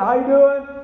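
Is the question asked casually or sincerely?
casually. It is asked in a quick, offhand way.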